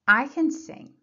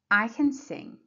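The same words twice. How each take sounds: First: The word 'can' is unstressed. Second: The same.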